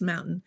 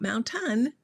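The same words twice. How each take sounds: First: The middle T is dropped. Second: The middle T is clearly pronounced. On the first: "I don't say my T's" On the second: "It's not mountain"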